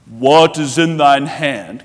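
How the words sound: It is said in a deep, booming supermanly voice.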